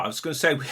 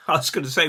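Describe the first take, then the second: First: Said in the usual way. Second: Laughing. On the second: Real, not acted.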